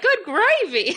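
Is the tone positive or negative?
positive. It sounds cheerful and positive.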